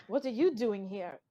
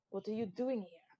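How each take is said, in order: First: "you" hit hard in the question; stress on YOU. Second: Said in the usual way. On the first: Acted. Pirate answers his rival's question with the same one, YOU stressed. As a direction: throw the question back, leaning on "you".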